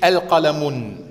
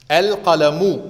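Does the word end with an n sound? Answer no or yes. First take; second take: yes; no. First: The word ends with an added n sound. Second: The word ends on a vowel without n. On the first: The speaker calls it wrong. "Nicht Al-Qalamun" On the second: The speaker calls it right. "L nicht mit doppelter Vokalisation"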